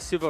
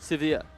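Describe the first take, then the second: First: The name ends in a short 'vuh' sound. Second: The name ends in a long 'veer' sound. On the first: The speaker calls it wrong. "I say Siva wrong" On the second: The speaker calls it right. "instead of Severe"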